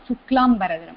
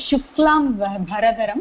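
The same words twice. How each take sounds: First: The dh consonant is unaspirated, without breath. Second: The dh consonant is aspirated with breath. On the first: The speaker calls it wrong. "not Suklambaradharam" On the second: The speaker calls it right. "It is Suklambaradharam, ... Dha Mahaprana"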